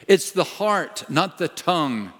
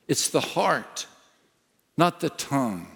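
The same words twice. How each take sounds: First: "It's the heart" punched high, then "not the tongue" falling; stress on heart and tongue. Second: "It's the heart" slower and softer, "not" stressed; softer slow repeat. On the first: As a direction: hit "heart" and set "tongue" against it. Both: Shown as a demonstration.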